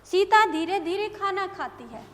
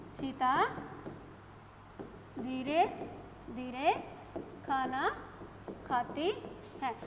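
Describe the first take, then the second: First: Said in the usual way. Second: Each word alone with long pauses; slow dictation, one word at a time. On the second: Shown as a demonstration. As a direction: dictate slowly so students can write. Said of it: "मैं अब आपको ये बता रही हूँ".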